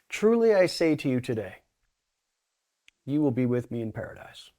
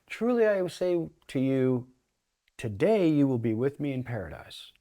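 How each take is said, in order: First: The pause comes after the word today. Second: The pause comes before the word today.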